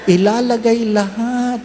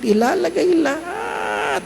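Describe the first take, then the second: First: Said in the usual way. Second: Much higher, slow whining echo; slow high mock wail; mock whine. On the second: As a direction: whine it like a glutton. Mocking repeat, whiny.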